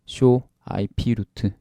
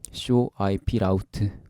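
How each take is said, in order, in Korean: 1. Route는 root처럼 발음해요. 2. Route는 rout처럼 발음해요. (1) "제가 발음을 잘못해서" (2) "라우트인데"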